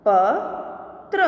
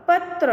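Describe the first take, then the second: First: Slow, each sound drawn out, rising at the end; slow drawn-out reading. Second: Said in the usual way. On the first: Shown as a demonstration. Teacher slowly sounding out a word for students, drawn out. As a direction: stretch the word slowly for the class. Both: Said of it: "के उदाहरण हम देखें".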